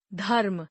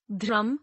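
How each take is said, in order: First: धर्म said as "dharm" with an aspirated dh and the r after the vowel; correct reading. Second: धर्म said as "dram" with the r before the vowel; misspelled reading. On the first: Teacher reads the correct form धर्म. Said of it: "शुद्ध वर्तनी". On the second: Teacher reads the misspelled form धर्म. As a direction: read धर्म wrongly as "dram". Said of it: "अशुद्ध वर्तनी". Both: Shown as a demonstration.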